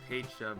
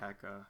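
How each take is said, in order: First: The middle consonant is a 'ch' sound. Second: The middle consonant is a 'k' sound. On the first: This is how the speaker has always said it. "I've always pronounced it" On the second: This is probably the official pronunciation. "pronounced it Pekka, so I'm guessing that's supposed to be official"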